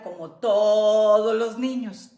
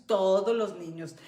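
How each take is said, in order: First: "todos los niños" drawn out slow and loud; slowed, loud stress on "todos"; emphatic aside. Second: Said in the usual way. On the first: Shown as a demonstration. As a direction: lean hard on "todos", stretching it.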